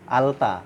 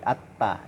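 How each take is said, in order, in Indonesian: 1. Bunyi L dibaca sebelum T. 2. L dihilangkan dan T dibaca ganda. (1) "tidak dibilang alta" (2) "tapi atta"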